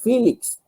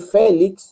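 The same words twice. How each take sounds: First: The name is said with an English pronunciation. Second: The name is said with a Spanish pronunciation. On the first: This is the name in the new English-speaking country. "acá es Félix" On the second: This is the name from the home country. "yo soy Félix"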